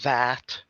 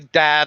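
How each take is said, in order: First: The word starts with a 'th' sound. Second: The word starts with a 'd' sound.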